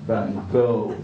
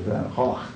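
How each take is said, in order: First: The name is said the common anglicized way. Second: The name is said the original native way. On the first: The speaker calls it wrong. "as we pronounce it" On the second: The speaker calls it right. "as it's supposed to be pronounced"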